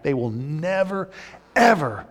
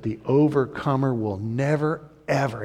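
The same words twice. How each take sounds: First: "ever" landing like a hammer; emphatic stress. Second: Said in the usual way. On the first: Shown as a demonstration. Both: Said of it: "and it's emphatic".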